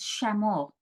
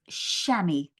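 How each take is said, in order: First: The word is said the French way. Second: The word is said the anglicized way. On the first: This is the original French form. "with the French pronunciation" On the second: This is the form learned growing up. "growing up, I learned that it was chamois"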